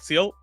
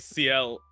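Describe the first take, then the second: First: It is said fast, blending into one syllable. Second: It is said slowly, as two separate letters. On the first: The speaker calls it wrong. "if I say it fast enough, it just it just comes out as seal" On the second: The speaker calls it right. "I have to like slow it down to like actually say C L"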